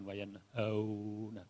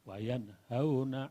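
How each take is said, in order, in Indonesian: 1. Vokal dalam 'hau' diucapkan panjang. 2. Vokal dalam 'hau' diucapkan pendek. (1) "bukan wayan hauna, bukan" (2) "satu harokat saja, tidak dibaca panjang"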